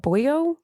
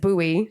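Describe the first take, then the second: First: The word ends with an extra 'oh' syllable. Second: The word has no extra 'oh' syllable. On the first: The speaker calls it wrong. "how do I pronounce this word?" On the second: The speaker calls it right. "The word is buoy"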